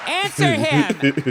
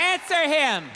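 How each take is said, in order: First: Mock heckler shout. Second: Brighter, faster repeat; mock heckler yell again. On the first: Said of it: "answer him right". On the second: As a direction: toss it back at him.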